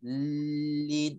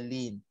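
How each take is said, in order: First: The L sound is held a little longer. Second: The L sound is short, like one letter. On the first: Both letters of the doubled letter are pronounced. The speaker calls it right. "lambat sikit" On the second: Only one letter is pronounced instead of two. The speaker calls it wrong. "itu kita dah sebut satu huruf sahaja"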